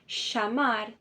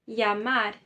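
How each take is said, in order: First: The double L sounds like sh. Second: The double L sounds like a y. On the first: This is how it is said in Argentina and Uruguay. "Quando se trata da Argentina e do Uruguai, esse doble L ... equivale a um C H, a um S H" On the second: This is the common, general pronunciation. "É como se você arrancasse os dois L's e colocasse a letra I"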